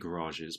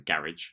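First: It is said with an American pronunciation. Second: It is said with a British pronunciation. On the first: "that's how the Americans say it" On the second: "like us Brits say garage"

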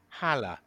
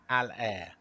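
First: The second syllable is not said like 'air'. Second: The second syllable is said like 'air'. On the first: The speaker calls it wrong. "I've been calling him Haller, but it's not Haller" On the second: The speaker calls it right. "You say Al and then Air"

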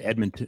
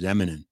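First: The T in the middle is clearly pronounced. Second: The T in the middle is dropped entirely.

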